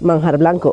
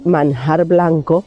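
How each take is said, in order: First: The n sound is nearly dropped. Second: The n sound is fully pronounced. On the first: This is how locals actually say it. "se dice manjar blanco, o sea, casi que se pierde la N" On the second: This is how it is written. "Se escribe"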